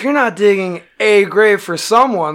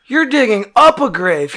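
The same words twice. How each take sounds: First: "a" said as a full, stressed AY; correcting him, with "a" picked out. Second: "up" punched high and loud; correcting him, with "up" stressed hard. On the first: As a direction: lean on "a" to draw the contrast. Contrasts digging with digging up. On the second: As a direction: hit the word "up" in disbelief. Contrasts digging up with digging. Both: Retold or imitated.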